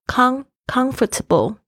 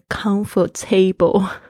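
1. 重音落在第一个音节上。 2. 重音落在后面的音节上。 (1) "它的那个重音是在前面comfortable 才是舒适的" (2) "不要念成comfortable"

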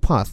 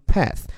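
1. 这是用英式口音读的。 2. 这是用美式口音读的。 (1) "英音读path" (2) "美音读path"

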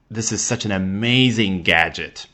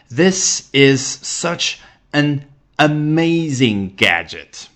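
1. 这句话说得比较快。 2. 这句话说得比较慢，带有感情。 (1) "说快一点" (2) "那情感再加进去，你可以说"

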